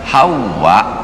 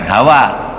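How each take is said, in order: First: The w is doubled and the ending lengthened. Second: The w is single and the ending short. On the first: It is the name of the first woman. The speaker calls it right. "hawa itu yang betul" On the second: It means desire or passion. The speaker calls it wrong. "bukan hawa"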